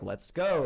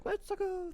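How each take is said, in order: First: Said in the usual way. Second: Very high, soft cartoon squeal; small falsetto mock cheer; imitated Mario catchphrase. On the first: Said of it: "he'll be like". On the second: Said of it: "he'll do his, like".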